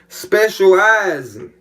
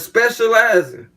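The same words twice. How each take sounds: First: The word is drawn out slowly. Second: The word is said at normal speed.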